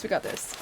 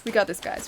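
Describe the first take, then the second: First: Breathy whisper to herself. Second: Said in the usual way. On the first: Real, not acted. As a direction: whisper it under your breath. Repeats pep talk under breath.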